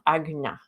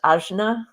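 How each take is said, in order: First: The middle consonant is a G-like sound. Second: The middle consonant is a hard J sound. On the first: The speaker calls it right. "put your tongue in the back of the mouth" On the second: The speaker calls it wrong. "this is not pronounced Ajna"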